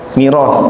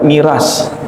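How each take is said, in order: First: The word ends with a soft 'th' sound. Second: The word ends with a plain 's' sound. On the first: The speaker calls it right. "Kalau bahasa Arabnya al-mirath" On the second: The speaker calls it wrong. "Jangan dibaca miras"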